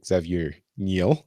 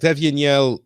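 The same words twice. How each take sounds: First: The name is said with American pronunciation. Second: The name is said with French pronunciation.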